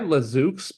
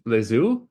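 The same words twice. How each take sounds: First: The name is said with an English-sounding accent. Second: The name is said with a French-sounding accent. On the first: The speaker calls it wrong. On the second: The speaker calls it right.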